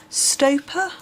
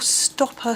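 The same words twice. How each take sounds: First: "Stoper" said with a long o, like "slope"; long-o pronunciation. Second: "Stopper" said with a short o, like "stop"; short-o pronunciation. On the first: Reading out the sender's surname, "Stoper" with a long o. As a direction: say "Stoper" as STOH-per. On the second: Trying the sender's surname another way, "Stopper" with a short o. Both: Shown as a demonstration. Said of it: "don't really know how to pronounce".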